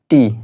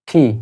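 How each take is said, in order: First: The t sound is plain, without a puff of air. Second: The t sound is aspirated, with a puff of air. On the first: The speaker calls it wrong. "এটাকে আমরা বলি টি" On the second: The speaker calls it right. "সঠিকভাবে হবে ঠি"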